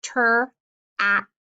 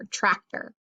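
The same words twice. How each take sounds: First: Slow "ter-act-er" with gaps between the chunks; teacher slowly segmenting "ter-act-er"; sounded out in chunks. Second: Said in the usual way. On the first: Shown as a demonstration. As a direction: break it apart piece by piece: "ter-act-er". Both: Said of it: "break this one apart".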